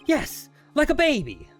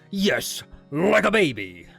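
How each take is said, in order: First: The line is read in a plain voice. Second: The line is read in a gruff, earnest voice.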